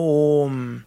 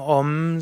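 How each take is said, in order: First: The O vowel is long. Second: The O vowel is short. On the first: The speaker calls it right. "dass im Sanskrit nur langes O gibt" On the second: The speaker calls it wrong. "dann wirst du nie mehr sagen Om"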